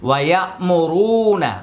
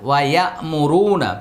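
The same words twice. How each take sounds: Both takes have the same delivery.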